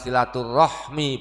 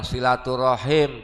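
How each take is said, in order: First: The word ends with the sounds hmi. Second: The word ends with the sounds him. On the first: The word is used in its Indonesian form. "berarti pakai bahasa Indonesia" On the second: The word is used in its Arabic form.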